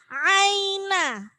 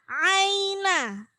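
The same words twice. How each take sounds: The two takes are said the same way.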